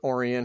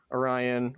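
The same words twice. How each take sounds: First: "Orion" as OR-ee-un, stress on the first syllable; "Orion" front-stressed, like OR-ee-un; alternate pronunciation. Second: "Orion" as oh-RYE-un, stress on the middle; "Orion" said slowly, middle syllable rhymes with eye; alternate pronunciation. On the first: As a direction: say "Orion" with an ee in the middle. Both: Shown as a demonstration. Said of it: "however you wanna pronounce it".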